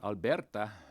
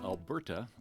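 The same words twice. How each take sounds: First: It is said with a slight Spanish accent. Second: It is said with a plain English accent.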